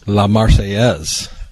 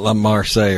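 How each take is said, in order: First: The name ends with a final 'ez' syllable. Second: The name lacks the final 'ez' syllable. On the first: The speaker calls it right. "Not La Marseille or whatever you call it" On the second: The speaker calls it wrong. "Not La Marseille or whatever you call it"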